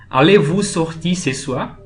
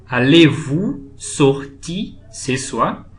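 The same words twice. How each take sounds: First: Said in the usual way. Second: Very slow, phrase by phrase with pauses; drawn-out teaching pace, each chunk lifted; slow model repetition. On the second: Shown as a demonstration. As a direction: break it up for learners, "Allez-vous", "sortir", "ce soir". Teacher repeats example slowly for learners.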